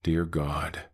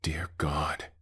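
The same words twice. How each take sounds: First: Voiced, empty echo of a frightened prayer; hollow copied voice. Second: Frightened whisper that carries; too-loud whisper. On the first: The creature mimics Eli's words in a hollow, empty voice. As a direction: copy the words perfectly but with nothing behind them. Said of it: "But hollow, empty, wrong". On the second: Acted. Eli in the tower, terrified, a loud whisper. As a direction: breathe it out in terror, a little too loud. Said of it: "Eli whispered too loudly".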